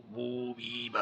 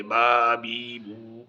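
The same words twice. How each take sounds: First: Reverse drill. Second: Syllables spelled out very slowly, one by one; very slow forward reading drill. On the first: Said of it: "ایسے بھی آنا چاہیے". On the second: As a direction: drag each syllable out for the child. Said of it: "یہ بھی الٹا سیدھا سارا آنا چاہیے". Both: Shown as a demonstration.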